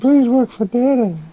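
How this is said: It is said in a creepy, unsettling way.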